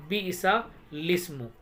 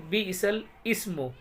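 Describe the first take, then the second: First: "बिइसा लिस्मु" with second word starting straight on ल; silent अलिफ. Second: "बिइसल इस्मु" split, second word starting on इ; अलिफ pronounced. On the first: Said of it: "ऐसे पढ़ेंगे". ("बिइसा लिस्मु" में सीधे ल से लिस्मु) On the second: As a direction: break before a clear इ in "बिइसल इस्मु". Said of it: "अगर अलिफ पढ़ते तो". ("बिइसल इस्मु" में इ अलग से बोलकर) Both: Shown as a demonstration.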